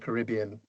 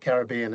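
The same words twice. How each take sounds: First: It is said in a non-Australian pronunciation. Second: It is said in an Australian pronunciation.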